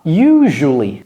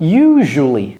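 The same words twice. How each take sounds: First: The middle consonant is a 'zh' sound. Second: The middle consonant is a 'zh' sound.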